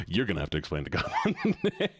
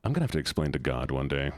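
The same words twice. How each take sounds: First: Laughing through the repeat. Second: Said in the usual way. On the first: Real, not acted. Streamer repeating her own joke, laughing. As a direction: giggle as you echo it.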